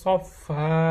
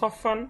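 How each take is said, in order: First: The word ends with a long drawn vowel. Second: The word ends with an n sound. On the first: The reader stops at the end of the verse. "শেষে আসলে যদি থামি তাহলে সফা" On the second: The reading continues without stopping. "যদি লাইনের মাঝখানে আসে তাহলে সফান"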